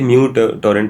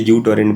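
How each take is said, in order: First: The name starts with an 'm' before 'yoo'. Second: The name starts with a plain 'yoo' sound. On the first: The speaker calls it right. "Actually म्यू torrent pronounce होता है" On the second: The speaker calls it wrong. "बचपन में हम उसे यू torrent बोलते थे"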